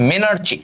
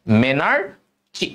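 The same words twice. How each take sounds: First: Said in the usual way. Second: "মেনার্চি" stretched slowly, split before the last syllable. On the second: Shown as a demonstration. Teacher repeats term after quizzing question. ("মেনার্চি" ধীরে ধীরে, ভেঙে ভেঙে উচ্চারণ)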